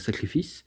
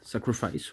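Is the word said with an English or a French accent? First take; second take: French; English. First: The word is said with a French accent. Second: The word is said with an English accent. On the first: "même si je sais dire euh" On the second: "je le dire avec un accent anglais"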